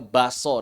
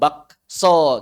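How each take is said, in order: First: The k sound is left out in the middle. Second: The k sound is pronounced in the middle. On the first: The speaker calls it right. "kita bilangnya baso" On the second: The speaker calls it wrong. "Kita enggak bilang bakso"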